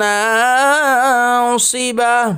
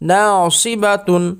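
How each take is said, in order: First: The word ends with a stopped h sound. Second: The word ends with a full -tun sound.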